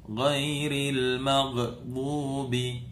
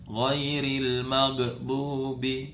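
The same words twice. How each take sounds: No difference in how they are said.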